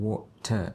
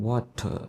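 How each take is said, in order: No difference in how they are said.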